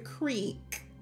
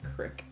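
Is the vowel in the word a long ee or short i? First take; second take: long ee; short i. First: The vowel is a long ee sound. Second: The vowel is a short i sound. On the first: This is how Canadians say it. The speaker calls it right. "Here in Canada, we enunciate our E's" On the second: This is how Americans say it. The speaker calls it wrong. "So American"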